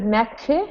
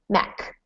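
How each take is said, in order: First: The word ends without a clear k sound. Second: The word ends with a clear k sound. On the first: The speaker calls it wrong. "instead of Mac" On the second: The speaker calls it right. "just end in a k sound here"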